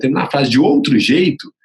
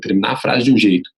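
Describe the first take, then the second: First: Higher pitch, "outro jeito" rising at the end; another way of ending. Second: "jeito" ending level, in the usual pitch; one way of ending. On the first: Coach showing varied sentence endings, "outro jeito" raised. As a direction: lift "outro jeito" upward to vary the ending. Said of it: "ou em determinado momento". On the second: Coach showing varied sentence endings, "jeito" kept level. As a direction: close "de um jeito" evenly, without lifting it. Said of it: "Se você conseguir variar". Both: Shown as a demonstration.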